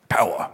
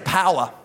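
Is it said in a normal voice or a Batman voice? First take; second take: Batman; normal. First: It is said in a deep Batman voice. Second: It is said in a normal voice.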